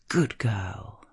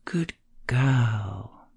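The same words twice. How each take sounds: First: The stress is on the word good. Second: The stress is on the word girl.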